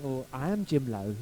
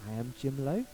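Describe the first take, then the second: First: Low-pitched, careful reply; polite, understated self-introduction. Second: Low, tentative questioning lilt; subtle, careful correction in a low voice; trying to be nice. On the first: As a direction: break it to them delicately, pitched low. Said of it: "How do I phrase this to them? How do I say it subtly without offending the person?". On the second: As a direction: say it gently, rising at the end. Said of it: "trying to nice way go". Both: Retold or imitated.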